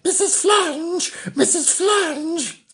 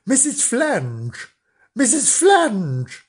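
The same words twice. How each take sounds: First: Put-on much higher, sing-song children's call with a laugh; higher, giggly sing-song of children calling; high kids' call. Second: Put-on slow sing-song call of children; children's slow sing-song call. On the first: Shown as a demonstration. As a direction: call "Missus Flange" high and slow like eager kids. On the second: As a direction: call out her name slowly like kids at the door. Children calling over the fence.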